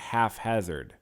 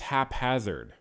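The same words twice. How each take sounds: First: The first syllable uses an F sound. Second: The first syllable ends with a P sound. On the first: The speaker calls it wrong. "it's not haphazard ... even though P H makes an F sound, I guess it doesn't in this context" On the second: The speaker calls it right. "I guess it's haphazard"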